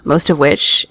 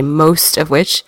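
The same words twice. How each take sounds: First: Said in the usual way. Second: "most" hit slow and drawn out; stress on most. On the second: Shown as a demonstration. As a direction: lean hard on "most" of which. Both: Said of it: "hear me say most of which".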